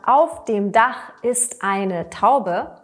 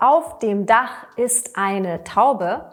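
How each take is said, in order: First: The preposition and article are said in full. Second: The preposition and article are said in full.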